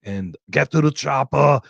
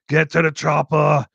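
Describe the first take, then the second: First: Said in the usual way. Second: "Get to the Chopper" barked louder in a lightly put-on action-star voice; action hero impression. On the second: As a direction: shout it like an eighties action hero. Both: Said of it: "grew up on Rambos".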